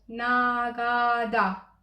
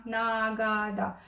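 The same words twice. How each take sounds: First: Teacher demo, "Nagada" said very slowly with a voiced middle g; drawn-out demo word. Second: Calm slower repeat of "Nagada" with a voiced g. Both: Shown as a demonstration. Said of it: "se va auzi mai degrabă G".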